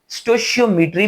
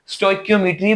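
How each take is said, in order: First: The middle sound is a soft sh. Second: The middle sound is a hard k. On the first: "स्टोशियोमेट्री भी बोलते हैं" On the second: "स्टोइकियोमेट्री भी इसको बोलते हैं"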